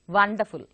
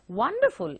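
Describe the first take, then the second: First: The word begins with a v sound. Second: The word begins with a w sound. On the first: The speaker calls it wrong. "we interchange them" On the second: The speaker calls it right. "which is the sound of W"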